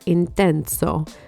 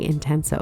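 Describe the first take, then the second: First: The word is said with lively, dramatic flair. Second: The word is said flatly, without any flair. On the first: The speaker calls it right. "I have to say it that way" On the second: The speaker calls it wrong. "That sounds so boring"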